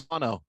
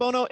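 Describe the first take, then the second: First: "Bono" with an open first vowel, BAH-no; pronounced BAH-no. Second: "Bono" with a long first O, BOH-no; pronounced BOH-no. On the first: Host admitting his usual version, "Bono" as BAH-no. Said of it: "It's not [name]". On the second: Host checking a corrected name, "[name]" as BOH-no. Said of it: "It's pronounced Bono". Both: Shown as a demonstration.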